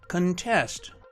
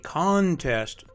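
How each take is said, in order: First: The stress is on the second syllable. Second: The stress is on the first syllable. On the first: It is used as a verb. "Two-syllable verbs are stressed on the second syllable" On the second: It is used as a noun. "Two-syllable nouns are stressed on the first syllable"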